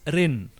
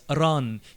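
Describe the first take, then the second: First: The word is said with an 'i' vowel. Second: The word is said with an 'a' vowel. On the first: This is the reading of those who know only hieroglyphic. The speaker calls it wrong. "The people who studied hieroglyphic only, they will pronounce it as Rin" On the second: This is the reading of those who know Coptic. The speaker calls it right. "the people who studied Coptic ... read it as Ran. You see, A is vowel"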